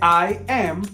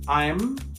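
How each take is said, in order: First: It is said as two full words. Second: It is contracted into a single syllable. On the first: "en vez de I am" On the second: "se puede contraer"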